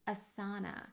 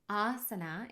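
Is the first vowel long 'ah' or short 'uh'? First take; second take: short uh; long ah. First: The first vowel is a short 'uh'. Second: The first vowel is a long 'ah'. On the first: The speaker calls it wrong. "not asana" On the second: The speaker calls it right. "asana is how you pronounce this word"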